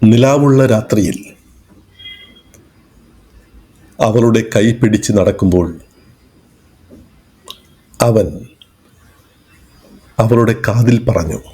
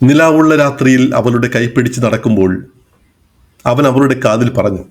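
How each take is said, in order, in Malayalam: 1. ഈ വാക്യത്തിൽ പല സ്ഥലങ്ങളിലും പോസുണ്ട്. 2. ഈ വാക്യം വളരെ കുറച്ച് പോസുകളോടെ തുടർച്ചയായി പോകുന്നു.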